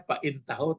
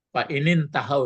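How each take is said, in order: First: The words are said separately without linking. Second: The words are joined with an extra n sound. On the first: "Sebenarnya aslinya" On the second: "ini kan nampak tuh"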